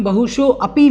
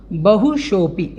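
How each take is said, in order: First: बहुशो अपि with an audible अ starting अपि; common mispronunciation. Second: बहुशोपि as one word, no अ after शो; correct pronunciation. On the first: Teacher showing the common mistake, बहुशो अपि with अ sounded. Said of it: "लोग बाग बोल देते हैं". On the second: Teacher modelling for students, joined बहुशोपि without अ. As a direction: run शो straight into पि, holding the long ओ. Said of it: "आपको बोलना है बहुशोपि". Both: Shown as a demonstration.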